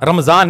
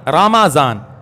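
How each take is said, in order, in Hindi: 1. m ध्वनि सीधे अगले व्यंजन से जुड़ जाती है। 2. m ध्वनि के बाद एक छोटा 'a' स्वर आता है। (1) "रमजान नहीं, ये हम कहते हैं रमजान, ये गलत है" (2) "मीम के ऊपर क्या है? जबर है, जज्म नहीं है"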